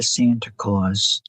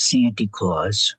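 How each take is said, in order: First: Said in the usual way. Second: "Santy" said with an ee ending, not Santa; fond imitation of "Santy Claus". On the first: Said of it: "Santy Claus". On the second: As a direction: stretch out "Santy Claus" slowly, the folksy way. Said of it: "or as Mary says".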